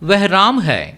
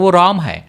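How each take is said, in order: First: The first word is pronounced 'veh'. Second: The first word is pronounced 'wo'.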